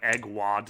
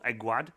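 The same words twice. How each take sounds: First: The name sounds like 'egg' plus 'wad'. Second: The first syllable does not sound like 'egg'. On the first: The speaker calls it wrong. "like a wad of eggs" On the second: The speaker calls it right. "it's a Welsh name"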